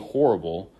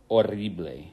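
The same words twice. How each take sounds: First: It is pronounced with English sounds. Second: It is pronounced with Spanish sounds. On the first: "we we see horrible" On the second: "but in Spanish"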